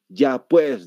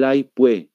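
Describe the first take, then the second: First: The final s is pronounced. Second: The final s is dropped. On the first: "el paseño siempre dice" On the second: "no pronuncian lo que es la S"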